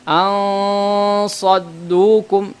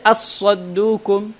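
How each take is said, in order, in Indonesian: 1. N menjadi dengung sengau yang berat sebelum s. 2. N lenyap sepenuhnya menjadi s yang digandakan. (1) "ini tebal" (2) "Jangan juga baca as-saddukum, karena ini adalah idgham"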